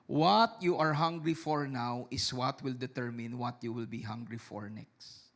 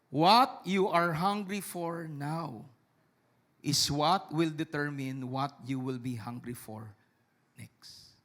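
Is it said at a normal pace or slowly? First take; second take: normal; slowly. First: It is said at a normal pace. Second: It is said slowly.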